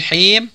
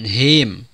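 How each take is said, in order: First: The h is a deep, raspy throat sound. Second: The h is a plain, light breath. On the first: The speaker calls it right. "pakai huruf ha" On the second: The speaker calls it wrong.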